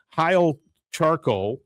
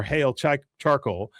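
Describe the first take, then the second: First: Slow, drawn-out "Heil Charcoal"; "Heil" rhyming with "mile"; Heil pronunciation. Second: "Hail" rhyming with "pale", stumbling into "Charcoal"; plain English "Hail"; Hail pronunciation. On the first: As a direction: say "Heil" with a long "eye" vowel, like "hile". Reads sign, offers two pronunciations. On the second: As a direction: say "Hail" with an "ay" vowel. Corrects to second pronunciation of sign. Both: Shown as a demonstration.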